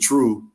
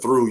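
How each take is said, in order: First: The word begins with a hard 't' sound. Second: The word begins with a soft 'th' sound. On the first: "the T H sounds like a T R" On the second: "instead of through"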